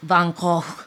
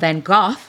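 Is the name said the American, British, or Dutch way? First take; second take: Dutch; British. First: The name is said the Dutch way. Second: The name is said as British speakers say it.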